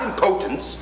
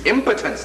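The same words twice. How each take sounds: First: The stress is on the second syllable. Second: The stress is on the first syllable. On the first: The speaker calls it wrong. "not impotence" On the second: The speaker calls it right. "you may as well learn how to pronounce it properly. It's impotence"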